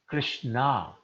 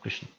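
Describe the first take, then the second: First: The name is said in its feminine form. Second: The name is said in its masculine form. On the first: It names a woman. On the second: It names a man.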